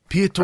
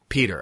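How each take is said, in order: First: The name is given a foreign-sounding pronunciation. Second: The name is pronounced like the English name Peter.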